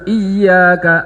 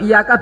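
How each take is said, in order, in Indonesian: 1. Bunyi y dibaca panjang, dobel. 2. Bunyi y dibaca pendek, tunggal. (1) "Harus iyyaka, ada tasdidnya" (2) "Kalau iyyaka bahaya"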